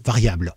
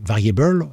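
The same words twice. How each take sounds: First: Said in the usual way. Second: English "variable" read with a French accent. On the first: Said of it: "vous lisez en gros variable". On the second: Shown as a demonstration. Reassuring beginners about code, English "variable" with French accent. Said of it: "si vous lisez avec l'accent français".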